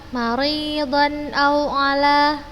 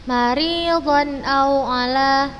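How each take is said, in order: Both takes have the same delivery.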